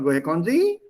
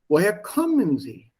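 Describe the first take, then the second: First: The pitch stays up at the end. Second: The pitch falls at the end. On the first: The speaker calls it wrong. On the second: The speaker calls it right. "Drop it at the end. There's a fall"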